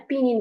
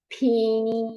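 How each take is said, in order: First: Said in the usual way. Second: ফিনিন with a puffed "ph" and long, drawn-out vowels; demonstrated pronunciation. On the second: Shown as a demonstration. Teacher shows student how pinyin is said, demonstrating ফিনিন drawn out. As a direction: stretch ফিনিন slowly, starting on an aspirated p. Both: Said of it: "এভাবে পড়ে বলে".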